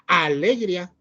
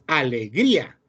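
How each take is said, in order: First: The stress is on the first syllable. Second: The stress is on the third syllable. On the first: The speaker calls it wrong. "No se escucha fuerte ni en A, porque no es alegría" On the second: The speaker calls it right. "la palabra es alegría ... la fuerza de la palabra va en gris"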